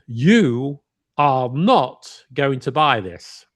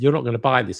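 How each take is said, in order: First: Each word is stressed separately and emphatically. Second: It is said in ordinary, smooth connected speech.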